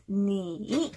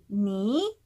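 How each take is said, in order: First: "니" drawn out, dipping then climbing back up; full third tone. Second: "니" drawn out with one upward glide; second tone on 니. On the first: Teacher shows the needless rise, full third tone. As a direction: slowly dip on 니, then lift it all the way. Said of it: "굳이 니 이렇게 올라가지 않으셔도 돼요". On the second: Teacher shows the tone-change rule, rising second tone. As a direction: raise 니 steadily, without dipping first. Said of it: "니 이 성으로 발음하시고". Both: Shown as a demonstration.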